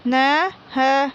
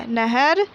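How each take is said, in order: First: नहर stretched very slowly, each syllable drawn out; slow syllable reading. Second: Said in the usual way. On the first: Shown as a demonstration. Teacher sounding out नहर for young pupils, very slowly. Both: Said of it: "बोल बोल कर पढ़ेंगे".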